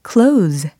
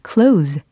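No difference in how they are said.

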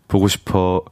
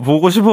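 First: It is said flatly, like a robot. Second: It is said warmly, with affection.

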